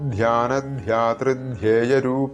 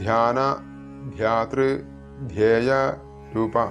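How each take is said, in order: First: The parts run together with no pauses. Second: Each part is separated by a short pause. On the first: The speaker calls it right. "മൂന്ന് പദങ്ങളാണ് ഇവിടെ ഒരുമിച്ച് ചൊല്ലേണ്ടതാണ്" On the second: The speaker calls it wrong. "അതല്ലാതെ ... എന്നിങ്ങനെ ചൊല്ലി"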